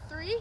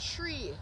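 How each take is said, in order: First: The word begins with a th sound. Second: The word begins with a plain t sound. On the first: "the number three" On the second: "It will sound like tree"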